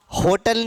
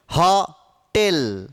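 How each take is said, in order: First: होटल with a closed, rounded ओ; wrong ओ vowel. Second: होटल slowly as "हॉ-टेल", open ऑ; open ऑ vowel. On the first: Teacher shows students what to avoid, closed ओ in होटल. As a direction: say होटल with full ओ, as commonly mispronounced. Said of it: "होटल नहीं बोलते हैं". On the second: Teacher models the word for students, slow open ऑ in होटल. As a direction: split होटल into two long syllables, हॉ and टेल. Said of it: "अ का उच्चारण करो". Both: Shown as a demonstration.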